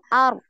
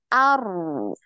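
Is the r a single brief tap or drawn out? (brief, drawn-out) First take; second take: brief; drawn-out. First: The r is stopped after one brief tap. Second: The r is drawn out in a continuous flow. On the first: "di rem sekali dulu" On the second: "baru dialirkan"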